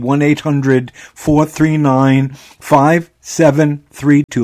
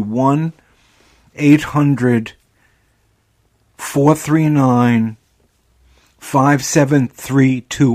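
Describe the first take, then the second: First: The number is said at normal speed. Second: The number is said slowly.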